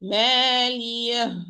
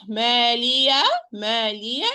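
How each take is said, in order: First: "مالية" held and finished with an audible breathy h; ha ending. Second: "مالية" ending in an open aa, no h at all; wrong demo without the final h; wrong alif ending. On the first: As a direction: close the last vowel of "مالية" with h. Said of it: "Not مالية". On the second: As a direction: leave the last vowel of "مالية" open like an alif. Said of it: "it's alif". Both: Shown as a demonstration.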